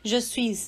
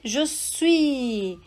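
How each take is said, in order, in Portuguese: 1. O S final de "suis" é pronunciado. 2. O S final de "suis" é mudo. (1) "Você não me ouviu dizer je suis" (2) "não pronuncio esse último S"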